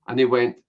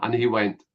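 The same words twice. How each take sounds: The two takes are said the same way.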